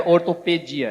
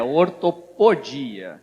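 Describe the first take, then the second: First: "ortopedia" said with PE in the middle; wrong term ortopedia. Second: "ortopodia" drawn out slowly, PO marked; stress on PO. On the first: Speaker corrects a mistaken term, "ortopedia" with PE. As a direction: say "ortopedia" with a pe syllable, at ordinary speed. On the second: Speaker corrects the term for listeners, "ortopodia" slow with PO stressed. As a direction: slowly spell out the sound or-to-PO-dia. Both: Shown as a demonstration. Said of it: "não é ortopedia, é ortopodia".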